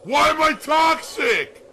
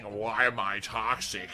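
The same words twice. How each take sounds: First: High, slow mocking yell; mock shout. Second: Slow quote of a taunt; mocking quote. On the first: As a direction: shout it out like a taunting meme. Acting out the meme taunt. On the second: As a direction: drag it out, mildly mocking. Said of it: "we're just gonna keep saying".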